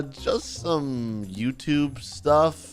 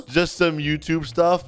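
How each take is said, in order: First: Slow, halting, reluctant reply; hesitant answer. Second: Slow, mocking echo rising at the end; mocking repeat. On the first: Acted. Victim telling the bully his work, hesitant. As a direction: drag it out sheepishly. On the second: Bully echoing the victim's answer, mocking. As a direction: parrot it back as a taunt.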